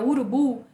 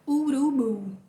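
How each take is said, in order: First: The u vowels are short and plain. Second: The u vowels are drawn out long.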